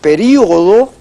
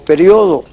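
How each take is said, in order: First: The stress falls on the i, four syllables. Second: The stress falls on the o, three syllables.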